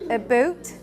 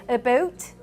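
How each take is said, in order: No difference in how they are said.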